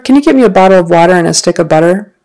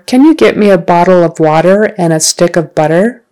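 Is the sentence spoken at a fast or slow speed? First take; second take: fast; slow. First: The sentence is spoken at natural, faster speed. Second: The sentence is spoken slowly. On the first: "at a more natural speed" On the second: "I'll say the sentence slowly"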